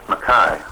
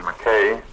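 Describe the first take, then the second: First: Mackay said as muh-KYE; Mackay the Australian way, ending in an "eye" sound; Australian pronunciation. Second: Said in the usual way. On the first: Shown as a demonstration. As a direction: say Mackay with the last syllable rhyming with "sky". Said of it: "or as the Australians say".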